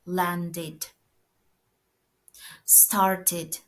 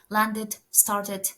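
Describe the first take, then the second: First: The words are said carefully with a full ending. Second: The words are said fast with a reduced ending. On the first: "we pronounce it as id" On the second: "Sometimes when it's fast"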